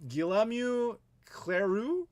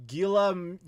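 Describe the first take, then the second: First: Guillaume Cleroux drawn out slowly in a clumsy French accent, ending on a rise; bad French accent. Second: Tentative French name. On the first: Reading a French Canadian viewer's name, slow unsure French accent. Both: Shown as a demonstration. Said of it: "my terrible French pronunciation".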